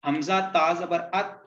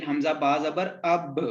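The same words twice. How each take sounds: First: Said in the usual way. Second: अब with the final ब bounced back, a light echo; qalqala bounce. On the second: Shown as a demonstration. Teacher demonstrating the qalqala echo on अब. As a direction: release the ब in अब so it rebounds. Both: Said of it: "अब आवाज टकरा के वापस आएगी".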